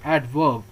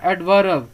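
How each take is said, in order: First: "एडवर्ब" as "ad-vub", silent R, lower; correct pronunciation. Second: "एडवर्ब" as "ad-va-rub", R sounded, louder; wrong pronunciation. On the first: Teacher corrects the wrong reading, correct pronunciation. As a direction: drop the R in "एडवर्ब", voice falling. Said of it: "ऐसा नहीं पढ़ना है". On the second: Teacher shows what not to read, wrong pronunciation. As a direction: put a clear R and extra vowel in "एडवर्ब". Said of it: "इसको नहीं पढ़ना है". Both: Shown as a demonstration.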